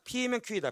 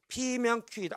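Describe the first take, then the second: First: It is read quickly without pausing. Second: It is read slowly with thinking pauses. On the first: The reader rushes and nothing sticks. The speaker calls it wrong. "빨리 읽어봅니다" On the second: The reader thinks through each step. The speaker calls it right. "천천히 가야지 할 수 있겠죠"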